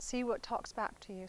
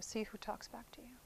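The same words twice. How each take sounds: First: Said in the usual way. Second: Whispered, much softer repeat. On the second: Shown as a demonstration. Teacher repeating the point to students in a whisper. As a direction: let the repeat fall to a hush.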